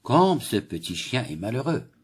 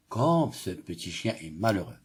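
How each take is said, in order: First: Said in the usual way. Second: Pitying. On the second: Shown as a demonstration. Teacher reading to pupils to show pity, pitying. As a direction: feel sorry for the little dog. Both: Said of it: "Cette phrase exprime la pitié".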